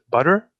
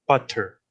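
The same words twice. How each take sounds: First: "butter" with a quick tapped T, like budder; flapped T. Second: "butter" with a crisp released T, but-ter; true T. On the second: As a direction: release a clear, puffed T in "butter". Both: Shown as a demonstration. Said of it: "different pronunciations of the T phoneme".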